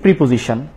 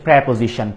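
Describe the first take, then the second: First: The first syllable is said like 'pri'. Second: The first syllable is said like 'pre'. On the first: The speaker calls it wrong. "আমরা maximum এটার উচ্চারণ কি বলি? ... আসলে প্রিপোজিশন না" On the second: The speaker calls it right. "এটা হচ্ছে প্রেপোজিশন"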